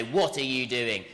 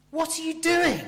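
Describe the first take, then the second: First: Understated, level scolding; teacher telling off. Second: High, loud cry of disbelief; astonished, shocked. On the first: Teacher to a pupil being told off, mildly stern. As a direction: look down on them and lightly reprimand. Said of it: "a teacher might tell you off and look down". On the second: Preacher voicing Paul to straying believers, aghast. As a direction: burst out in shocked surprise. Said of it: "He's astonished, shocked, surprised". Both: Acted.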